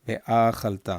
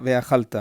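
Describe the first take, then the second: First: "ואכלת" with a long a after ve; both accents marked. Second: "ואכלת" said quickly as veachalta, louder; accents missed. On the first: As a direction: say "ואכלת" as ve-AA-chal-TA. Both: Shown as a demonstration.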